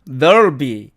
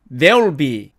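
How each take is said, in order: First: "there'll be" as "thurl-bi", vowel dulled; weakened there'll be. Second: "there will be" as "derl-bi", vowel kept; contracted there'll be. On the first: Teacher repeating the weaker alternative, reduced. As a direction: weaken the first syllable of "there'll be". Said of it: "소리가 약해지면". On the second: Teacher repeating the first short form, contracted. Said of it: "소리의 변이가 일어나는". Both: Shown as a demonstration.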